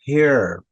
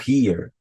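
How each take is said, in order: First: The vowel is an 'eh'-like E sound. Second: The vowel is a Portuguese-style 'ee' sound. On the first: The speaker calls it right. "falo som do E" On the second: The speaker calls it wrong. "aqui eu não falo here"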